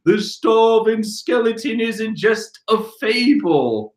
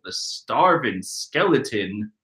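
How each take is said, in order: First: Slow, slightly raised dramatic reading; quoted ninja line. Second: Said in the usual way. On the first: Acted. The ninjas announce the legend, slow and dramatic. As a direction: intone the legend with mock dread. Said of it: "all the ninjas like". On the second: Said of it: "I'm pretty sure if you're a skeleton".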